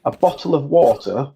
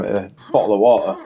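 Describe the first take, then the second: First: Crisp southern English accent, every t sounded in bottle and water; a clean TV English bottle of water. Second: Yorkshire accent, bottle as bo'le with the t swallowed. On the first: Demoing the accent for a friend, clear southern English. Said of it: "would you like me to say it in a Yorkshire accent". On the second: Showing how it's said where he's from, Yorkshire accent. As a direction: eat the t's in bottle of water the Yorkshire way. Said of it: "where I'm from". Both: Shown as a demonstration.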